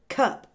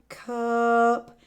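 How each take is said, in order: First: The word is said quickly. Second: The word is stretched out slowly.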